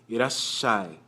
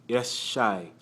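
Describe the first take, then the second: No difference in how they are said.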